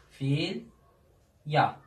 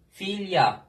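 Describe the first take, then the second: First: Filya, slow, drawn and falling; Filya, drawn out as a model; pronunciation repeat. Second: Filya, falling, crisp; filya, stressed fil, louder; pronunciation demo. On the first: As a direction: repeat Filya slowly, lya clearly. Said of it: "Gördünüz mü". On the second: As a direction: say filya clearly, lya at the end. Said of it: "Bir başka". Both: Shown as a demonstration.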